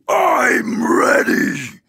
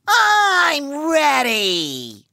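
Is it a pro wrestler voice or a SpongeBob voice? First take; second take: pro wrestler; SpongeBob. First: It is said in a pro wrestler's voice. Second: It is said in SpongeBob's voice.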